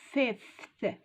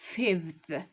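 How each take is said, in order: First: The word is said with an F sound. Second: The word is said with a V sound. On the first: The speaker calls it right. "we say fifth. It's with F" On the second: The speaker calls it wrong. "we don't say fifth"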